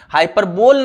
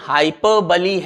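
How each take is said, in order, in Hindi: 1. यह शब्द 'ole' ध्वनि से खत्म होता है, जैसे bowl में। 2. यह शब्द एक अतिरिक्त 'ee' अक्षर से खत्म होता है। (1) "हाइपरबोल नहीं है" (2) "इसका प्रोनाउंसिएशन हाइपरबली है"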